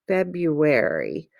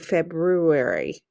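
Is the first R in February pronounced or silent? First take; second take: silent; pronounced. First: The first R sound is left out. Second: The first R sound is clearly pronounced. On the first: This is how it is said in Kansas. "I don't say that R sound" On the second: This is how it is said in some other places. "in some places, they do"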